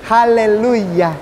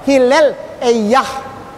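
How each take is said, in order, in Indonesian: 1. Diucapkan Haleluya, bentuk lokal. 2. Diucapkan Hillel Eyah, bentuk Ibrani. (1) "Kalau di sini Haleluya" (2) "Itu bahasa Ibraninya"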